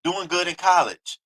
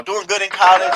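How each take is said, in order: First: Said in the usual way. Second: Amused chuckling repeat; laughing. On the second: Real, not acted. Vlogger mocking the student's image, laughing. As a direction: laugh through the words.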